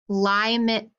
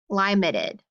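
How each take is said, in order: First: The first vowel is a long 'eye' sound. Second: The first vowel is a long 'eye' sound.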